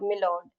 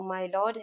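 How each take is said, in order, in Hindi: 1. पहला अक्षर छोटी 'mi' ध्वनि है। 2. पहला अक्षर पूरी 'my' ध्वनि है। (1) "टीवी में और मूवीज में अब तक मैंने सुना था" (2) "करेक्ट प्रोनंसिएशन तो"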